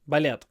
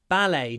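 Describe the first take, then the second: First: The word is said with Russian pronunciation. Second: The word is said with English pronunciation. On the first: The speaker calls it wrong. "So it's not балет" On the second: The speaker calls it right. "It's ballet"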